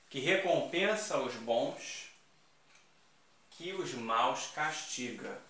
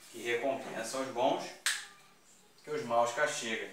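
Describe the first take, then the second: First: Slow, weighty reading of the verse; slow recital. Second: Said in the usual way. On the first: Shown as a demonstration. Teacher reciting the antithesis example slowly for the class. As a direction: lay out the inverted line slowly. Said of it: "aqui eu só vou inverter". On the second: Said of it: "Não é isso?".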